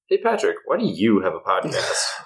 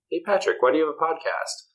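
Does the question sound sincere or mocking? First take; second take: mocking; sincere. First: It is asked in a mocking, belittling tone. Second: It is asked as a plain, sincere question.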